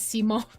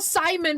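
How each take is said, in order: First: The name ends with a long 'oh' sound. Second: The name ends with a short 'un' sound. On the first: This is how the game characters say it. "Meadow pronounces Simone as Simone" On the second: This is how the speaker would normally read it. "I would normally see that and go Simon"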